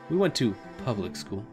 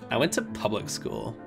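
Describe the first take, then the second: First: It is said in a plain, ordinary tone. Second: It is said in a bragging, Mai-like voice.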